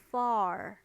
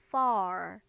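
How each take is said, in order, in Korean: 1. 이 단어는 분명한 f 소리로 시작해요. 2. 이 단어는 분명한 f 소리로 시작해요.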